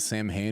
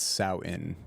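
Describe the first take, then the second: First: It is said like 'sam-hane', with m and h. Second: It is said like 'sow-in', without m or h. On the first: The speaker calls it wrong. "It's not Sam Hain" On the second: The speaker calls it right. "it's Sao In. That's how you pronounce it"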